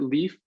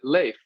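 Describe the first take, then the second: First: The name is said the American way. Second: The name is said the Swedish way. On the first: This is how the speaker is usually known. "I pronounce it Leaf because I've been I've born and raised in America" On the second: This is how people in Sweden say it. "in Sweden they pronounce it Leif"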